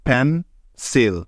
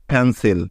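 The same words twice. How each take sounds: First: pencil broken slowly into পেন, pause, সিল; pause mid-word. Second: Said in the usual way. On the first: Shown as a demonstration. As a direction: stop in the middle of pencil to separate its two syllables. (Pencil মাঝখানে থেমে ধীরে, পেন আর সিল ভেঙে) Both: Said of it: "মাঝখানে একবার থামতে হচ্ছে".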